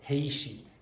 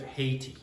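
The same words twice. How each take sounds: First: The word is said with an Irish accent. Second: The word is said with a standard English accent. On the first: "she has an Irish accent, so she's going Haiti" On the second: "instead of Haiti"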